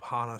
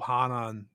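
First: "Hana" said short as HAH-nah, no final n; "Hana" with two syllables, ending on the open vowel; wrong name. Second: "Hanan" said as HAH-nahn with a final n; "Hanan" said carefully, the second syllable stressed and ending in n; corrected name. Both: Shown as a demonstration. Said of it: "sorry, you said Hana earlier".

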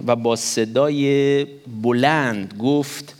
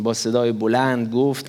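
First: Very slow, stretched reading with a rising end; badly read, drawn out. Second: Said in the usual way. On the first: Shown as a demonstration. Preacher stumbling slowly through reading the verse aloud. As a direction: drag each word out as if stumbling through the verse.

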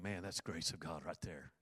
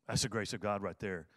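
First: Softer, murmured to himself in awe; half-whispered thought to himself; hushed inner thought. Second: Said in the usual way. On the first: Retold or imitated. Pastor recalling his own thought, softly awed.

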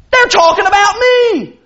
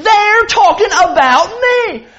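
First: Higher-pitched touchy jumping to conclusions; lightly acted, instantly suspicious churchgoer; overly defensive person. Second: High, slow, emphatic mock indignation; overly defensive person. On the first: Preacher plays a member overhearing gossip, overly defensive. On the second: Preacher plays a member sure he's discussed, overly defensive. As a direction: draw out the aggrieved suspicion, playing it up. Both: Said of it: "I'm gonna be the overly defensive person".

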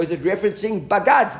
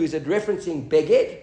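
First: "bagad" with open a in both syllables; pronounced as bagad. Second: "beged" with short e in both syllables; pronounced as beged. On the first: Teacher offering the other reading, "bagad" with two a vowels. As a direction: say "bagad" as ba-GAD, questioning. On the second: Teacher weighing two readings of the word, "beged" with two e vowels. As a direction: say "beged" as BEH-ged, questioning. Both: Shown as a demonstration. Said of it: "the way the word is pronounced".

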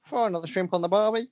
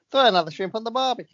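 First: Put-on slipping, half-hearted Australian accent. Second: High, brisk mock-Australian accent. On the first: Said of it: "It's totally gone". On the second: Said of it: "This isn't an Australian accent".

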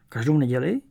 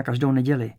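First: Incredulous echo with a rising end; distrustful question. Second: Said in the usual way. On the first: A narrator's reading. Pierre doubts the cinema every Sunday, distrustful question. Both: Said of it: "Nedůvěřivě opakoval pan Pierre".

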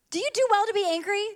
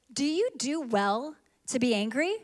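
First: Pitched up and quick, pressing the question; higher, faster repeat of God's question. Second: Said in the usual way. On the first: Shown as a demonstration. Preacher repeating God's question, pitched up and quick. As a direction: ask it again high and fast, pushing back.

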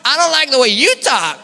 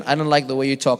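First: "you" punched high and loud in a put-on preacher accent; David Hogan's accent. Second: Said in the usual way. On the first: Preacher answering a critic, "you" loud in his accent. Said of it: "but he has this accent". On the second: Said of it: "They say".

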